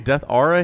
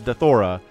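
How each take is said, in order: First: It is said as two words, ending in 'aura'. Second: It is run together as one word, 'deth-ora'. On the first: It is read as the words it is made of. "My brain really wants to say Death Aura here because that's what it is" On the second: It follows how the well-known casters say it. "Tastosis pronounces it Dethora"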